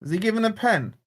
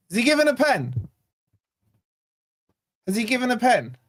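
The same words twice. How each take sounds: First: Said in the usual way. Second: Higher, eager questions; hope starting to take over; rising excitement. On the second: Real, not acted. Fan hoping the ref gives a penalty, excited and higher.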